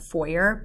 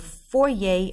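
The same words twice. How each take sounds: First: It is said with an English pronunciation. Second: It is said with a French pronunciation. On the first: This is the English word for an entrance hall. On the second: This is the French word for household.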